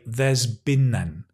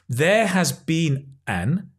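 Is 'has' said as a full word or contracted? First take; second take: contracted; full. First: The word has is contracted onto there. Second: The word has is said in full.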